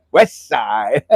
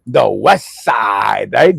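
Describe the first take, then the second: First: "West side" laughed out in Hawaiian pidgin; Hawaiian accent. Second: Said in the usual way. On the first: Retold or imitated. Host copies how local friends say "West side", Hawaiian pidgin. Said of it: "Make sure you put that accent to it". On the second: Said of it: "You say it like that, though".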